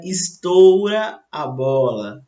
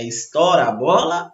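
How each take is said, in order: First: Estoura said as istôura, closed ou; careful "estoura", closed o gliding to u; correct pronunciation demo. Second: Estoura said as istóra, open o; the incorrect "estoura", open vowel istóra; wrong pronunciation demo. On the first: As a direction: say "estoura" with a full closed ou glide. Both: Shown as a demonstration. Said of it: "o correto".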